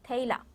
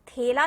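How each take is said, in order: First: The first vowel is a broad 'ai' sound. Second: The first vowel is a plain 'e' sound. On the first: The speaker calls it right. "एला आ रहा है, ए, थैला" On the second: The speaker calls it wrong. "थेला नहीं आ रहा है, थे ए नहीं आ रहा है"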